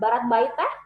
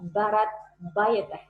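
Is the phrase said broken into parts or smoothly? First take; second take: smoothly; broken up. First: It is said smoothly in one quick run. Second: It is said slowly, split into separate chunks. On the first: The speaker calls it wrong. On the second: The speaker calls it right. "saya chunking juga"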